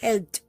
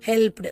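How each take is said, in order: First: The ending is a bare 't' sound, no vowel. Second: The ending is a full extra syllable, 'du'. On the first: The speaker calls it right. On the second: The speaker calls it wrong.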